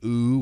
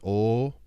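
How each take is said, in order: First: The vowel is an English-style 'oo'. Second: The vowel is a long drawn-out 'oh'. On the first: The speaker calls it wrong. "how you would do it in English" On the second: The speaker calls it right. "supposed to be an elongated vowel sound"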